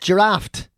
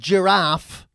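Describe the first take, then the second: First: The word ends with an added t sound. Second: The word ends plainly without a t sound. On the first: "These T's just keep sneaking into the fucking" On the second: "they will pronounce the word giraffe"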